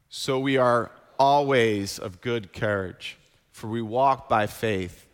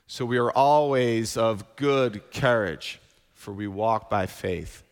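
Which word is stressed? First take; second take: always; good courage. First: The word 'always' gets the stress. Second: The words 'good courage' get the stress. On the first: "we're going to emphasize that word always" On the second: "I'm going to emphasize the word good courage this time"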